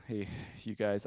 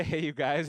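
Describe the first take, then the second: First: Said in the usual way. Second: "Hey, you guys" tossed up with a hopeful rise; chummy greeting. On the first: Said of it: "I try to say". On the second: Shown as a demonstration. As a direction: try it bright and inviting, ending up. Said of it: "I try to say, "Hey, you guys".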